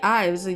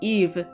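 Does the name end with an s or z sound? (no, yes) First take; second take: yes; no. First: The name ends in a z sound. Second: The name ends in a v sound. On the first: This is how it is read from the spelling. "just reading I um, I just I just say Ives" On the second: This is how it is said in Japanese. "in Japanese they say like Eve"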